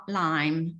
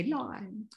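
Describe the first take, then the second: First: Lime with a northern vowel twang; Huddersfield lime. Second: Lime said the posh way, much quieter. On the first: Showing his own Huddersfield twang on lime. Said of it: "words that I say that still have a twang". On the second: Showing the posh version of lime for contrast. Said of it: "whereas if I was really posh". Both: Shown as a demonstration.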